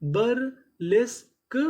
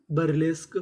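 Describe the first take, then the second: First: बरलेस्क stretched very slowly, with a rising end; teacher modelling बरलेस्क slowly; slow drawn-out demo. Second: Said in the usual way. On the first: Shown as a demonstration. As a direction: sound out बरलेस्क for the class. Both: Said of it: "तो हमारी पूरी meaning क्या बनी?".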